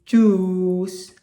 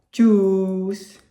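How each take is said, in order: No difference in how they are said.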